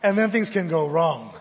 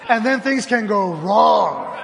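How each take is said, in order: First: Said in the usual way. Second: Then stretched, slow and louder with a laugh; stress on then. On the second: Shown as a demonstration. Pastor repeating the line to the room, slow and emphatic. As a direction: lean hard on then, slowly. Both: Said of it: "repeated with emphasis".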